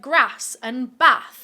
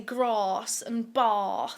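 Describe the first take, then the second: First: It is said in Jane's plain accent. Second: It is said in a posh Southern accent.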